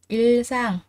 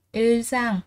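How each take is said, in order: Both takes have the same delivery.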